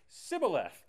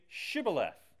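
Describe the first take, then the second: First: The word begins with an s sound. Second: The word begins with an sh sound. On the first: The speaker calls it wrong. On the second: The speaker calls it right.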